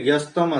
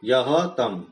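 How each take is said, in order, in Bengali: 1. শব্দ দুটো মিশে একটা শব্দ হয়ে গেছে, yastam। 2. শব্দ দুটো আলাদা হয়ে যায়, yah আর tam। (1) "একসাথে সন্ধি হয়ে যস্তম উচ্চারণ হচ্ছে" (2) "পদবিভাগ যখন হবে ইয়হ তম"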